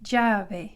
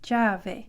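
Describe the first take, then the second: First: It begins with a J-like sound. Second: It begins with a J-like sound.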